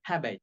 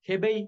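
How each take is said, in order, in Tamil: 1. முதல் உயிரெழுத்து திறந்த 'ae' ஒலி. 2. முதல் உயிரெழுத்து சாதாரண 'e' ஒலி.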